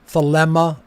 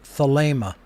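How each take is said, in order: First: The second vowel is a short eh sound. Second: The second vowel is a long ay sound. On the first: The speaker calls it wrong. "another epsilon" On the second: The speaker calls it right. "It is a long A sound"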